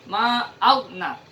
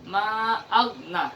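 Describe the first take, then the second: No difference in how they are said.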